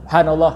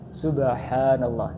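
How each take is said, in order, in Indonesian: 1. Diucapkan sangat cepat. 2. Diucapkan dengan tempo sedang dan merata. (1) "kalau itu terlalu cepat"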